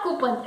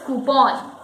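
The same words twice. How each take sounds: First: "coupon" as KOO-pun; weak, swallowed "pun" ending on "coupon"; mispronounced coupon. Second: "coupon" as KOO-pon; full open o in the end of "coupon"; correct coupon. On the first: Teacher rejects a mistake, "coupon" as KOO-pun. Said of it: "It is not coupon". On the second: Teacher gives the correct word, "coupon" as KOO-pon. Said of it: "it is coupon". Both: Shown as a demonstration.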